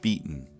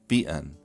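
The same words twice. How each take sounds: First: The glottal stop is released through the nose. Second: The glottal stop is released through the mouth. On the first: This is the general American way. "General American pronunciation releases glottal stops nasally" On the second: This is the way heard in Utah. "in Utah is that glottal stops are released orally"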